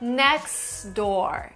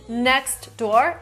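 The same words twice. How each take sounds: First: The T is dropped, going straight to the D. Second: The T at the end of next is pronounced.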